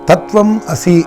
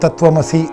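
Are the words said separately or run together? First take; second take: separately; run together. First: The words are said separately, not joined. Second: The words are said quickly, run together.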